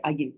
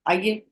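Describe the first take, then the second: First: "Aaiye" said short with a falling tune. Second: "Aaiye" lifted with a rising tune; rising, welcoming tone. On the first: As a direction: let "Aaiye" drop at the end. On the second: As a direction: let "Aaiye" rise at the end. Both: Shown as a demonstration. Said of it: "the whole meaning changes".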